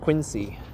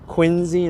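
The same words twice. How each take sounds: First: The middle consonant is an S sound. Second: The middle consonant is a Z sound. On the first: The speaker calls it wrong. "not Quincy" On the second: The speaker calls it right. "replace the C with like a Z"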